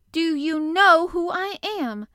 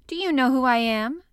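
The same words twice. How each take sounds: First: High, very loud, slow, drawn-out demand; more imperious demand. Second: Loud, lordly question; imperious demand. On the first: Colin demanding an answer from the staring gardener, very imperious. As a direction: press every word imperiously. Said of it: "still more imperiously". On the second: Colin confronting the gardener from his wheelchair, imperious. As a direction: demand recognition like a rajah. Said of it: "demanded the rajah". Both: A narrator's reading.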